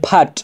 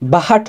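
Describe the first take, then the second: First: The h is blended into the consonant as aspiration. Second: The h is pronounced as a separate syllable. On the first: The speaker calls it right. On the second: The speaker calls it wrong.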